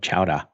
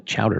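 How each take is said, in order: First: It is said in a Boston accent. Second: It is said in a general accent.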